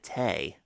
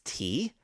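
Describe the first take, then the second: First: The vowel sounds like 'ay'. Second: The vowel sounds like 'ee'. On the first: This is an unusual pronunciation heard elsewhere. "on Reading Rainbow they pronounced it tay" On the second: This is the usual everyday pronunciation. "I would normally pronounce it tea"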